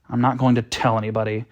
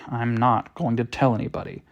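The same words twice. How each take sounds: First: The words are spoken at a normal pace. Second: Each word is spoken slowly and deliberately. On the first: The speaker calls it wrong. "I'm glad you tell me I said it slowly after I said it" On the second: The speaker calls it right. "Rewind. ... I said each word slowly"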